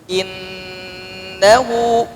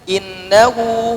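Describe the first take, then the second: First: The doubled n is held for several counts. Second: The doubled n is said short without holding. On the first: The speaker calls it right. "tapi ditahan dulu" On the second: The speaker calls it wrong. "Jadi tidak"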